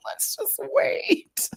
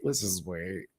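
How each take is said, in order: First: Mock crying whisper. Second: Said in the usual way. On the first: Teasing viewers about the ranking, in a mock crying whisper. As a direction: whisper it like a mock sob, high and slow. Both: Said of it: "That's me".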